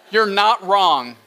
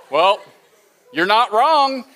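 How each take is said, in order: First: Dry cynical drawl. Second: Cynical tone. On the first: Shown as a demonstration. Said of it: "I had to work hard to say". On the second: Retold or imitated. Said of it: "more cynical way of saying I'm right".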